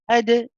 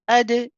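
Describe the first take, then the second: First: The d ends with a gentle, soft bounce. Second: The d ends with a gentle, soft bounce.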